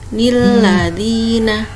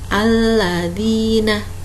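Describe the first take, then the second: First: The word starts with an added n sound. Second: The word starts directly with a vowel. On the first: The word is joined to the verse before it. "harusnya nun iwad itu dibaca ni" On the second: The word begins a new verse. "jika nun iwad ada di awal ayat, makanya dibaca alladzina"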